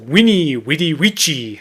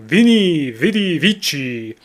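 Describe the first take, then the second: First: Each word begins with a W sound. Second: Each word begins with a V sound.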